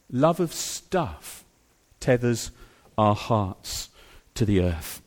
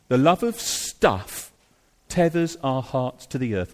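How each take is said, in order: First: Each phrase set apart with pauses, Love and tethers weighed; slow, deliberate, word by word for emphasis; slow broken repetition. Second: Said in the usual way. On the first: Shown as a demonstration. Slow repeated emphatic restatement.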